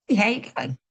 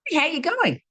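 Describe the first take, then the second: First: Said in the usual way. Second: Bright Aussie "Hey, how you going?" pitched well up; Aussie greeting. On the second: Retold or imitated. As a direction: sing out a friendly Australian hello. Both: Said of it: "Australians got this saying".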